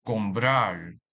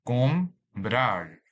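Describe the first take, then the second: First: Said in the usual way. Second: "Comprar" split in two, com, prar; syllable by syllable. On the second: Shown as a demonstration. Teacher dividing a word for learners, "Comprar" in separate syllables. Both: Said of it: "This word has two syllables".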